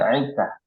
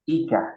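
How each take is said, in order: First: It starts with a throaty pharyngeal sound. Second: It starts with a light glottal catch. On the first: The speaker calls it wrong. "bukan aika" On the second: The speaker calls it right. "i-nya bukan ain, itu hamzah"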